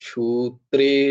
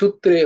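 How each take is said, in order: First: The first vowel is drawn out long. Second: The first vowel is short and clipped. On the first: The speaker calls it right. "একটু টেনে উচ্চারণটা হবে" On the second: The speaker calls it wrong. "নাহলে সূত্রে হতো"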